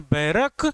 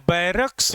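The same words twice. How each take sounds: First: बैरक ending on a bare K; no final S. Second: BARRACKS with a clear S at the end; final S sounded. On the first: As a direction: say बैरक, dropping the closing S. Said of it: "नहीं बोलते हैं". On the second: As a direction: say बैरक्स, keeping the closing "ks". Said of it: "ही बोलते हैं". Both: Shown as a demonstration.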